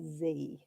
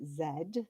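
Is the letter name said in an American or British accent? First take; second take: American; British. First: The letter name is said in an American accent. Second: The letter name is said in a British accent. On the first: "if you're saying it with um, an American accent" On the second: "in English, British English, which is where I'm from"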